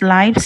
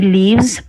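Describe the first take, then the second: First: The vowel is long, as in 'life'. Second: The vowel is short, as in 'give'. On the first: It is the plural of the noun life. The speaker calls it wrong. "We don't say lives because lives is the plural of the word life" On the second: It is the verb form for one person. The speaker calls it right. "we say he lives"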